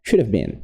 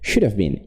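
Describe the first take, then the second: First: The words run together with 'have' reduced. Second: The words run together with 'have' reduced.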